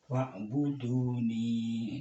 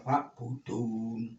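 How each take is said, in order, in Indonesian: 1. Kata itu berakhir dengan vokal setelah n. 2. Kata itu berhenti mendadak pada bunyi n.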